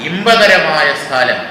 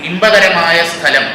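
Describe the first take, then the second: No difference in how they are said.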